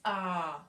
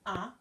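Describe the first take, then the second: First: The vowel is held longer. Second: The vowel is held briefly. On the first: "This this just makes the sound longer" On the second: "instead of ah"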